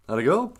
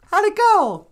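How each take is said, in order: First: Said in the usual way. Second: Grandma voice. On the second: Acted. High grandmother voice asks.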